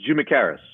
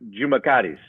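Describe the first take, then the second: First: The name is said with anglicized pronunciation. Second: The name is said with Greek pronunciation. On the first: "is how we say it" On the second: "the Greek way is"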